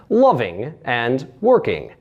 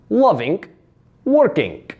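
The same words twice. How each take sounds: First: Said in the usual way. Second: Loving, working as "lovink, workink"; added K ending. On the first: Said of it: "found in words ending in ing". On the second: Shown as a demonstration. Coach shows Russian endings, K closing loving and working. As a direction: add a K after -ing in loving, working. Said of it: "small after sound that happens after the G".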